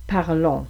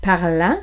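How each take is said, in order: First: "parlons" ending in a rounded "on"; "parlons", final vowel clearly not "an"; closed on. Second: "Parlant" ending in an open nasal "an"; "Parlant", final vowel clearly not "on". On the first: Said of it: "plus de distinction entre le on et le an". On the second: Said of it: "un an qui est plus ouvert". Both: Shown as a demonstration.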